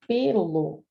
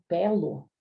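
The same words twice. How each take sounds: First: First pelo with a closed e, as in pêlo. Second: Second pelo with an open e, as in pélo. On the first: Teacher showing the noun, pelo said with closed ê. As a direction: draw out pelo slowly with a closed ê. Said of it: "se for o substantivo, acento circunflexo". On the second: Teacher showing the verb, pelo said with open é. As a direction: draw out pelo slowly with an open é. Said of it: "se for o verbo com acento agudo". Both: Shown as a demonstration.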